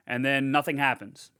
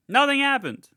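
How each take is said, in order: First: Said in the usual way. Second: High, loud stretch on "Nothing"; emphatic repeat. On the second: Real, not acted. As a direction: punch "Nothing" high and hold it, then drop.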